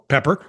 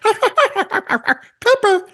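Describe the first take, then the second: First: A put-on voice imitating a son calling. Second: A put-on voice imitating a wife calling. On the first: The son calls the dog his way. "That was an impression of a son" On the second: The wife calls the dog her way. "my wife's dog impression"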